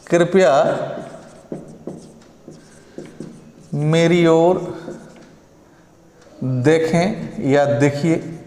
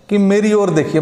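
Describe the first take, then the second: First: Slow, gentle pleading tone; polite request. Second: Said in the usual way. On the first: Shown as a demonstration. Teacher asks students to look at him kindly, slow pleading. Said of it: "थोड़ा आग्रह कर दो यार". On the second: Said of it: "मान लो आपको कहना है कि मेरी ओर देखिए".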